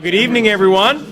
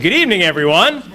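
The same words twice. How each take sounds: First: It is said in a plain, ordinary voice. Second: It is said in a loud school-teacher voice.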